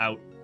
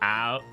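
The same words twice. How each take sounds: First: It is said in a Canadian accent. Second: It is said in an American accent.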